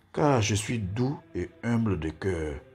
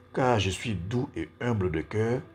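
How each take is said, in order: The two takes are said the same way.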